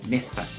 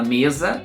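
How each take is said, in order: First: The middle consonant is a hissing s sound. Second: The middle consonant is a buzzing z sound. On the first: The speaker calls it right. "o correto é mesa. A letra S tem sempre o som de, do, do nosso duplo S" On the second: The speaker calls it wrong. "Se você fala mesa, todo mundo vai entender"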